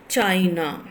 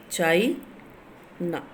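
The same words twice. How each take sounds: First: Said in the usual way. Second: "China" in two beats, rising on "Chai", pause, then "na"; split into syllables. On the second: Shown as a demonstration. Teacher counting syllables for students, "China" split in two with a pause. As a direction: break "China" apart, lifting the first syllable. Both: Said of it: "Two syllables are there".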